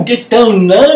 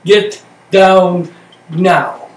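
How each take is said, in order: First: Loud, high yell of get down now; shouted command. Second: Slow calm repeat. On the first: Retold or imitated. Instructor shouting at the trainee under the burning shack. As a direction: bark it at her in a panic. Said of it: "screaming and shouting". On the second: Shown as a demonstration. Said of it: "slow quiet echo after the shouting".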